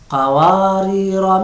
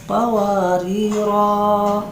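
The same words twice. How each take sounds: First: The final vowel is said short. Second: The final vowel is said long. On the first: The reading continues into the next word. "harus dibaca pendek atau qasar" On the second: The reading stops at this word. "dibaca panjang selama satu alif"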